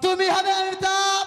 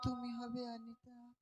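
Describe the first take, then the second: First: It is said loudly and forcefully. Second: It is said softly and quietly.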